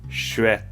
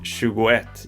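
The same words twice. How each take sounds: First: The middle 'go' syllable is dropped. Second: Every syllable of the word is fully pronounced. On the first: "skip the G and the O in tjugo" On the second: "instead of saying"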